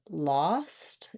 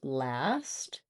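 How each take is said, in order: First: The vowel is the back 'ah' of father. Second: The vowel is the front 'a' sound. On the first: The speaker calls it wrong. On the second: The speaker calls it right.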